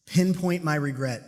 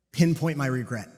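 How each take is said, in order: First: "Pinpoint my regret." slowly, each word weighted; slow emphatic repeat. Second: Said in the usual way. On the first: Shown as a demonstration. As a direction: lean into "Pinpoint" and drag the phrase. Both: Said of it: "Number one".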